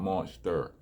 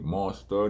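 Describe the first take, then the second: First: The word ends with an 'er' sound. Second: The word ends with an open 'ah' sound. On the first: The speaker calls it wrong. "not an E R" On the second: The speaker calls it right. "It's an A in monster"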